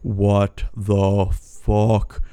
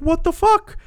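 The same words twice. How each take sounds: First: Drawn out very slowly in stunned disbelief; a long, dazed, unbelieving drawl. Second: Much higher, louder shocked yelp; a sudden high squeal of disgust; startled shriek. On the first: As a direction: stretch every word as you take in the webs. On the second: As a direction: jump out of your skin at the spiders. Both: Retold or imitated. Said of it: "I'm like".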